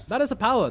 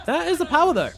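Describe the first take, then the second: First: Loud, high emphatic repeat; excited. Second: High, loud shout; excited shout. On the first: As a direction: hammer the line home again. Repeating the hype line. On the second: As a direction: yell it out in hype. Big teamfight kill. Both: Real, not acted.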